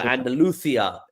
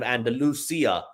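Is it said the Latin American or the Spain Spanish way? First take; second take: Spain; Latin American. First: It is said with a Spain Spanish pronunciation. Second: It is said with a Latin American pronunciation. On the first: "in Spain they use" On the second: "instead of"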